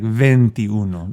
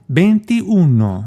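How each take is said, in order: First: The first sound is a clear V. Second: The first sound is not a clear V. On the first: The speaker calls it right. "It should be a V" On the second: The speaker calls it wrong. "I mispronounced it"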